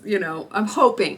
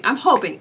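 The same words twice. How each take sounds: First: Said in the usual way. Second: "hoping" said louder and higher, leaning on it; emphatic hoping. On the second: Real, not acted. Patient still hoping about the nurse, "hoping" stressed louder. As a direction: insist on "hoping" the second time. Repeats hoping with more force.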